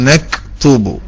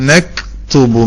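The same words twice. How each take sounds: Both takes have the same delivery.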